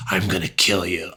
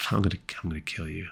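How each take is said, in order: First: Soft, staring menace; heavy, deliberate serial-killer delivery; intense killer threat. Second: Very soft, quick throwaway murmur; creepy, casual understatement; smiling threat. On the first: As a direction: bore into them with the threat. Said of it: "looked into the windows of your soul". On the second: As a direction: toss it off quietly with a smile. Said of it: "if they just smiled". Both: Shown as a demonstration.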